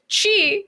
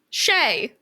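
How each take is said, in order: First: The word ends with an 'ee' vowel. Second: The word ends with an 'ay' vowel. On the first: The speaker calls it right. "which is how I've always pronounced it" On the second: The speaker calls it wrong. "the pronunciation as C H A Y"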